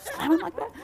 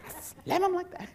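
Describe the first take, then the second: First: Said in the usual way. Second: Lightly voiced lady, higher, "I slam 'em like that" said flat and certain; a hint of the blunt lady answering; imitating lady. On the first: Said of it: "And I said". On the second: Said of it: "She goes".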